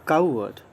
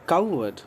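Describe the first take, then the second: Both takes have the same delivery.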